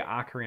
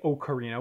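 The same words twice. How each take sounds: First: The first vowel sounds like 'ah'. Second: The first vowel sounds like 'oh'. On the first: This is how it is said in a Midwest accent. "in the Midwest accent, O's are often A's" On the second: This is how some other people say it. "some people do say ocarina"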